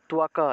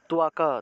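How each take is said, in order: No difference in how they are said.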